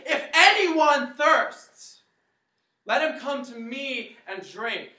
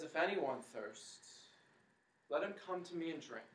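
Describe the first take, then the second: First: Much higher, much louder, slow proclamation; crying out. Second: Quiet retelling. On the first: Jesus stands at the feast calling to the crowd, loud slow cry. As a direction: cry it out over the whole crowd. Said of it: "Jesus gets up and he says". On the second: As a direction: bring it down gently for the present day. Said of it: "He says". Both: Acted.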